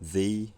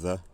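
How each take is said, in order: First: The word has a full, strong vowel. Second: The word has a reduced, weak vowel. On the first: "in strong form" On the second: "in weak form"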